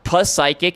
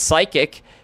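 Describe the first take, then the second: First: The initial P is pronounced aloud before the word. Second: The initial P is silent and not pronounced. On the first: The speaker calls it wrong. "it's not pus psychic" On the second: The speaker calls it right. "it's psychic"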